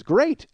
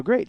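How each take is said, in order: First: High, upbeat mimicked reply; cheerful echo. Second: Said in the usual way. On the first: Relieved young driver answers the man she hit, high and cheerful. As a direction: echo it brightly, pitched way up.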